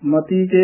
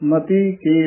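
First: The two words are run together. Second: The two words are kept separate. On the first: The speaker calls it wrong. "ਇਕੱਠਾ ਨਹੀਂ ਕਹਿਣਾ" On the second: The speaker calls it right. "ਵੱਖਰਾ ਵੱਖਰਾ ਉਚਾਰਨ ਕਰਨਾ"

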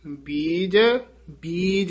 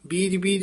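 First: The two words are said as separate words. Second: The two words are run together with doubling. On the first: The speaker calls it right. "ਬੀਜ ਬੀਜ ਇਉਂ ਬੋਲਣਾ" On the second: The speaker calls it wrong. "ਬੀਜ ਤੇ ਯਮਕ ਲਾ ਕੇ ਬੀਜ ਬੀਜ ਇਕੱਠਾ ਨਹੀਂ ਕਹਿ ਦੇਣਾ"

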